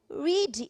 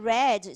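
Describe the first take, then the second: First: The word does not sound like 'red'. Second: The word sounds like 'red'. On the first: It is the present tense. "para presente e passado vai mudar a pronúncia" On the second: It is the past tense. "a gente pronuncia como vermelho"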